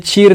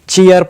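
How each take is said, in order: First: The vowel is a plain long ee. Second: The vowel glides from ee to uh. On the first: The speaker calls it wrong. "नहीं" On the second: The speaker calls it right. "Pronounce करते हैं"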